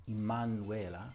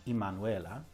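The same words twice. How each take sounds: No difference in how they are said.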